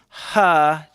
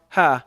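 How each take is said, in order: First: The h is breathed out strongly. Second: The h is breathed out lightly. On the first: "I notice that there's like this ha" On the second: This is how it sounds in a Western accent. "it's not as much of a ha, not an emphasized"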